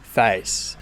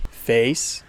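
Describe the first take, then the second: First: "face" like "fice", tune falling; "face" the broad Australian way; Australian A vowel. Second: "Face" with the vowel starting on "eh"; "Face" the American way. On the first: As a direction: say "face" as "fa-ees". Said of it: "you get face". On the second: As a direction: say "Face" as "feh-ees", tune rising. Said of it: "instead of the word face". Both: Shown as a demonstration.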